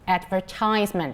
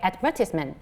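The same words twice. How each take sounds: First: American accent, stress on the third syllable. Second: British accent, stress on the second syllable.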